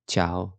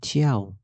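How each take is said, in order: First: No glide follows the first consonant. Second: A 'y' glide follows the first consonant. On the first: The speaker calls it right. "يبقى تشاو تشاو" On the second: The speaker calls it wrong. "هنا ما قلناش تشياو"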